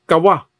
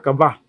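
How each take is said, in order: First: The middle consonant is a w sound. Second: The middle consonant is a b sound. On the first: This is the original Hebrew pronunciation. "W man ang iyang pronunciation" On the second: This is how it is read from the local spelling. "sa atong pagbasa kaba"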